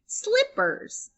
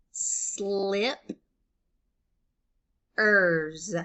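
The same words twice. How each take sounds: First: Said in the usual way. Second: "slip, ers" as two beats with a long pause between; split into syllables. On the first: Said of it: "When I blend slip". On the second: Shown as a demonstration. Teacher breaking up a word for learners, "slip, ers" syllable by syllable. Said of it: "break it into syllables like this".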